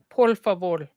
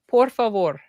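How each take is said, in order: First: The syllables end with an L sound. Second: The syllables end with an R sound.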